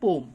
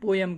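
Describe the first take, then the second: First: The word is said with one syllable. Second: The word is said with two syllables. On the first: The speaker calls it right. "उसका proper pronunciation है पोम" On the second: The speaker calls it wrong. "Common language में पोएम कहते हैं"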